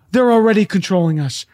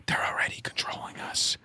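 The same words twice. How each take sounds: First: Said in the usual way. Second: Conspiratorial hushed whisper. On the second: Real, not acted. Speaker tells conspiracy believers they are already controlled, whispering. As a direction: drop to a whisper, as if letting out a secret. Same words repeated as a secret.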